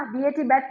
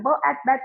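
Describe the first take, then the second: First: बी ए टी spelled by letter names, then बैट; letter-name spelling. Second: ब as a bare sound, एट, then blended बैट; phonics blending. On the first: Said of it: "बी ए टी बैट नहीं बोलूंगी". (बी ए टी अक्षरों के नाम से, फिर बैट) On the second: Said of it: "मैं सिर्फ साउंड्स बोलती हूँ". (ब की ध्वनि, फिर एट, जोड़कर बैट) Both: Shown as a demonstration.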